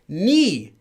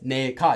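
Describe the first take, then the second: First: The first syllable is said as 'ni'. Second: The first syllable is said as 'nae'. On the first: The speaker calls it right. "It's actually pronounced as ni" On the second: The speaker calls it wrong. "is actually not pronounced as 내가"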